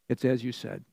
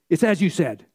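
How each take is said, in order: First: It is said in a calm, steady way. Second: It is said in an anxious, agitated way.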